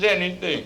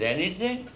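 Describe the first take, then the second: First: High, falling answer in mock female voice; consenting secretary. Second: Put-on high, rising, intrigued old man; lecherous questioning. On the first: Secretary confirms her offer to the boss, consenting. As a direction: confirm it, pitched up, falling at the end. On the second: Lecherous old boss hears the secretary's offer, intrigued. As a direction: ask it with rising, leering interest.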